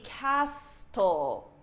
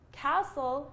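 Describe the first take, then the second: First: The T in the middle is sounded. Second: The T in the middle is silent. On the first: This is how it would sound if spelling decided pronunciation. The speaker calls it wrong. "if you could, this word would be castle" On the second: This is the actual pronunciation. The speaker calls it right. "It wouldn't be castle because this T is silent"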